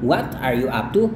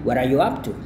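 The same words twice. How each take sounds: First: The t in 'what' is a clear t. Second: The t in 'what' is a quick soft d. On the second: "D-nya berubah menjadi flat D or soft D"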